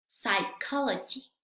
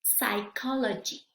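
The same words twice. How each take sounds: First: "psychology" again sai-KO-lo-jee, no p sound; slow repeat of "psychology", starting on s; silent p repeat. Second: "Psychology" said sai-KO-lo-jee, no p sound; slow "Psychology" with a silent p, starting on s; careful teacher demo of "Psychology", p dropped. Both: Shown as a demonstration. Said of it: "vamos a ver cómo se pronuncian".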